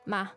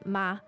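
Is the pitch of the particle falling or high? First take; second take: falling; high. First: The particle is said with a slightly falling pitch. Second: The particle is said on a slightly higher pitch. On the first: It softens the sentence and gently persuades. "a slightly falling tone" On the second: It marks a question. "So a slightly higher tone, a pitch for the question"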